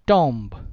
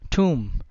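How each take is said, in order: First: The final B is clearly pronounced. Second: The final B is silent. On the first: The speaker calls it wrong. "So it is spoken as" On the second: The speaker calls it right. "बी हर जगह silent होगा इन सब words में"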